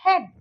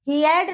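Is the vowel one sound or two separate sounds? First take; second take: one sound; two sounds. First: The vowel is one short sound. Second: The vowel is split into two sounds. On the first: The speaker calls it right. "यहाँ पे हम इसको बोलेंगे हेड" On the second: The speaker calls it wrong. "ही एड नहीं बोलेंगे हम"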